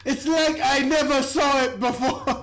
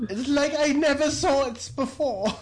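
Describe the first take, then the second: First: Put-on Chicago accent through a laugh; fake Chicago accent. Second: Chicago accent, lightly put on; fake Chicago accent. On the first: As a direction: redo it in a hammed-up Chicago accent. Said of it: "There it is". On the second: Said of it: "she's doing her fake Chicago accent".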